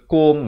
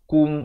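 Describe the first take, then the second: First: The vowel sounds like o. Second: The vowel sounds like u. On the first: The speaker calls it wrong. "bukan bunyi ko" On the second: The speaker calls it right. "bunyi ku"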